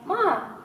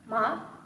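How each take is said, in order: First: It is said with the tone meaning mother. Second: It is said with the tone meaning plant. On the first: The word means mother. "usually means mother" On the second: The word means a plant. "means some kind of a plant"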